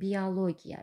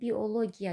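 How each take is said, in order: First: A y sound is added and o becomes a. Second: It is read exactly as spelled, with o. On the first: This is how the word is actually pronounced. "Necə tələffüz olunur? ... Y girir ortaya, o aya keçir" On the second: This is how the word is written. "Biologiya yazılır"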